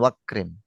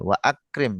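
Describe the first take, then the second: First: The vowels merge and the glottal stop is dropped. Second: The glottal stop before 'akrim' is kept. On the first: The speaker calls it wrong. "bukan wakrim" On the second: The speaker calls it right. "tetap wa akrim"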